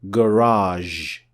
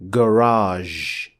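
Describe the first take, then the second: The two takes are said the same way.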